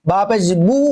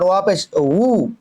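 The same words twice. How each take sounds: First: "বু" as bu, lips closing for b; clear b. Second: "উ" as a slow, drawn-out wu; w, never b. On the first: Teacher contrasts ba with waw, clear b. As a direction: close the lips fully on "বু". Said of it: "বু নয়". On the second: Teacher contrasts waw with ba, slow rounded wu. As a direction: round the lips on "উ" without closing them. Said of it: "বু নয়, ওয়া পেশ উ". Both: Shown as a demonstration.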